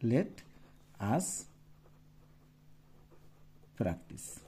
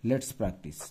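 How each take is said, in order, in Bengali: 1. Let ও us দুটি আলাদা শব্দ হিসেবে বলা হয়। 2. Let ও us মিলে একটি সিলেবল হয়ে যায়।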